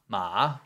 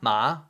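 First: It is said with the third tone. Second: It is said with the second tone.

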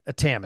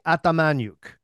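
First: The name ends with a short 'nik' sound. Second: The name ends with a 'nyuk' sound. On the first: This is the anglicized form used in Canada. "Now that's Canadianized" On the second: This is the original Ukrainian form. "So it's Ukrainian. So it should be Atamanyuk"

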